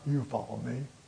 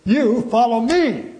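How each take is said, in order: First: 'You' and 'me' are not specially stressed. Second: 'You' and 'me' are strongly stressed.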